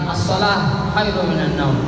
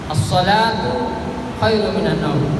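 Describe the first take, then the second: First: The first word ends with a soft 'h' sound. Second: The first word ends with a full 'tu' sound. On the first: The speaker calls it wrong. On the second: The speaker calls it right. "posisi nyambung, maka dibaca tak juga biasa"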